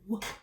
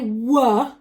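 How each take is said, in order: First: The sound is said very quietly. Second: The sound is said loudly. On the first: The speaker calls it right. "It's a very quiet sound" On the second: The speaker calls it wrong. "Be careful not to say w"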